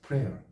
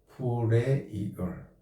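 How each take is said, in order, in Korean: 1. 한 음절로 발음해요, prair. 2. 두 음절로 발음해요, pray-er. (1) "어떨 땐 프레어로 읽힐 때가 있어요" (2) "하나는 잘 보세요. 프레이얼"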